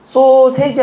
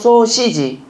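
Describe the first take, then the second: First: The second syllable has the vowel 'e'. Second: The second syllable has the vowel 'i'. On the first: The speaker calls it wrong. "아니고" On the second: The speaker calls it right. "아니고 소시지"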